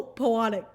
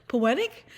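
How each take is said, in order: First: Poetic said as po-AH-tic; mispronounced poetic. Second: Said in the usual way. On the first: Real, not acted. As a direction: stumble into poetic with an AH middle. Stumbles, then corrects the word.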